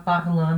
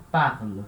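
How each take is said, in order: First: "parlant" with a nasal an ending, the wrong way; mock mistake "parlant"; wrong pronunciation. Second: "parle" with a silent ending, lower; teacher's correct "parle"; correct pronunciation. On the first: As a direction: say "parlant" sounding the ENT as an. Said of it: "não, tá errado". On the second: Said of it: "É uma exceção na hora de pronunciar". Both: Shown as a demonstration.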